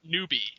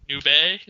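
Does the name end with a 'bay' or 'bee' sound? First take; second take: bee; bay. First: The name ends with a 'bee' sound. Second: The name ends with a 'bay' sound.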